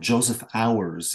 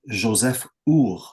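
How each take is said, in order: First: The name is pronounced in an American way. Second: The name is pronounced in a non-American way.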